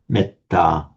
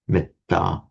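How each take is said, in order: First: The first vowel is said short. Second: The first vowel is said short.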